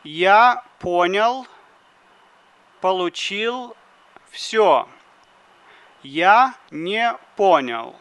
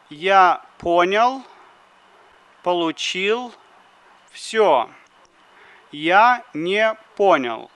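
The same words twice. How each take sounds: The two takes are said the same way.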